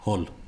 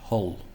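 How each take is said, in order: First: The final L is light and not deep. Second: The final L is deep and lower in pitch. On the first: "my L isn't particularly deep" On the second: "lower that L to make it a, D, a lower pitch"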